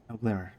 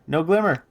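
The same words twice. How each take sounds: First: Muttered aside. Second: Higher, louder insistence; emphatic repeat. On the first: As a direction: drop the volume on the reply. [name] answers herself, first take. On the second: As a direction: push it up, insisting. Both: Acted.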